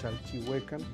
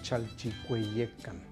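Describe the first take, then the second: First: The name is said in the common simplified way. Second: The name is said in the full Nahuatl way. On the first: This is how people usually say it. The speaker calls it wrong. "La gente le dice Chalchihuecan porque eh, confunde o no sabe pronunciar el náhuatl" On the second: This is the original Nahuatl form. The speaker calls it right. "es Chalchicueyecan"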